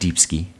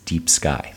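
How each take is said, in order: First: The name ends with an 'ee' vowel sound. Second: The name ends with an 'eye' vowel sound. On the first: The speaker calls it wrong. "It's not Deep Ski" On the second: The speaker calls it right. "Phaedra's last name is pronounced Deep Sky"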